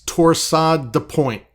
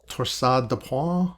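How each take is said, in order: First: It is said with an English-style pronunciation. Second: It is said with a French-style pronunciation. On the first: "to the rest of us" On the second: "I think it's pronounced"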